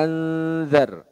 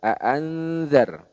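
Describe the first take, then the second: Both takes have the same delivery.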